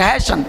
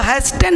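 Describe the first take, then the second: First: The t sound is silent in the middle. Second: The t sound is pronounced in the middle. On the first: The speaker calls it right. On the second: The speaker calls it wrong.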